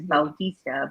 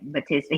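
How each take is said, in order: First: The first syllable has an 'ow' sound. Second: The first syllable has a plain 'ah' sound. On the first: This is how Filipinos say the name. "we pronounce it as Bautista" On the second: This is how Americans say the name. "Americans say it Batista"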